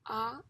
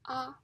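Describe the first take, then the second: First: It is said with the second tone. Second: It is said with the first tone. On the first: "the second tongue" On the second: "the first tongue"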